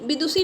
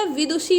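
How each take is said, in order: First: विदुषी with a plain 's', vidusi; wrong pronunciation. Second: विदुषी with a 'sh' sound, vidushi; correct pronunciation. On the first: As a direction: flatten the ष of विदुषी to s. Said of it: "नहीं होता". (विदुषी में 'ष' को 'स' बोलें) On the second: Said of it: "होता है". (विदुषी में 'षी' साफ़ बोलें) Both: Shown as a demonstration.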